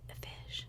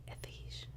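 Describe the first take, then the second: No difference in how they are said.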